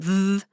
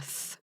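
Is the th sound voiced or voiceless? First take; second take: voiced; voiceless. First: The th sound is voiced, with buzzing vocal cords. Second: The th sound is voiceless, with only breath. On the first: "There's a voiced T H" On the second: "there's a voiceless T H"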